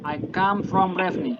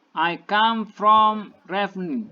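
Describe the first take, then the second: First: Said in the usual way. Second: Each word slow and clearly spaced, as for learners; slow model reading. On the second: Shown as a demonstration. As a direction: read it slowly like a teacher dictating. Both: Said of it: "And then the second sentence".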